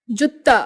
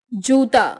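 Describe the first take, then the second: First: Short U, doubled T in जूता; western UP pronunciation. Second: Said in the usual way. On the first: Shown as a demonstration. Teacher showing western UP speech, जूता as jutta. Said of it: "पश्चिमी उत्तर प्रदेश उच्चारण". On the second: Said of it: "Hindi उच्चारण".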